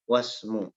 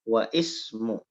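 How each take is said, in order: First: The words run together without a glottal stop. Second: A glottal stop is pronounced before 'ismu'. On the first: The speaker calls it right. "Jadi hamzanya tidak lagi terbaca" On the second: The speaker calls it wrong. "itu salah"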